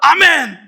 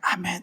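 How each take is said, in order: First: It is said loudly and boldly. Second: It is said quietly and timidly.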